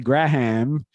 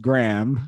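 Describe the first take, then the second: First: It is said with Spanish-influenced vowels and sounds. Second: It is said with standard American English sounds. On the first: This is how Spanish speakers in the area say it. The speaker calls it wrong. "Puerto Ricans will say Graham" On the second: This is the usual English name. The speaker calls it right. "of course you know it as Graham, like Graham crackers"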